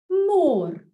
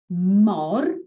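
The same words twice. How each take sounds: First: Mor with a long drawn o; long vowel. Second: Said in the usual way. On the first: Shown as a demonstration. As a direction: stretch the o in mor. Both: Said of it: "to extend the vowel sound".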